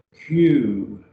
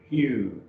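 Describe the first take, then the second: First: "Hugh" said as plain "you", no breath at the start; "Hugh" without the rough breathing, bare "yoo"; no h sound. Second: "Hugh" said with a light breathy h before "yoo"; with an h sound. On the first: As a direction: drop the h on "Hugh", just "yoo". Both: Shown as a demonstration. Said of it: "put a little H sound on the beginning".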